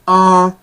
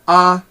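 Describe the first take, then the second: First: The vowel is nasal and high in pitch. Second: The vowel is high in pitch, not nasal. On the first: "the short form high nasal tone" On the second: "the short form high tone"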